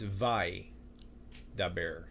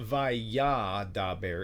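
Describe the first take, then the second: First: No vowel after the y, three syllables. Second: A vowel is sounded after the y, four syllables. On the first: The speaker calls it right. "It's vai da bear" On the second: The speaker calls it wrong. "it's not vaya da bear"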